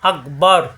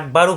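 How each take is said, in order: First: The word ends on a heavy r consonant. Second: The word ends with a short u vowel. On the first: The speaker calls it right. "রয়ে সাকিন হয়ে যাবে, এভাবে পড়তে হবে" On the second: The speaker calls it wrong. "এখানে আকবারু পড়া যাবে না"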